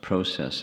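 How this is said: It is said with the Canadian pronunciation.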